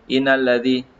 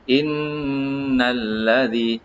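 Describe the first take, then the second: First: The n sound is short without a held nasal hum. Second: The n sound is held with a nasal hum. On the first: The speaker calls it wrong. "dia bukan kita baca" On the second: The speaker calls it right. "Kita baca innalladzi, eh, dengung"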